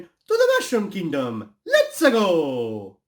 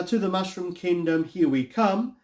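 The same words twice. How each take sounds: First: High, drawn-out cartoon battle cry; Mario catchphrase. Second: Said in the usual way. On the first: Shown as a demonstration. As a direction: shout it as a gleeful rallying call. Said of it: "it really should have been". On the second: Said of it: "I mean, you said".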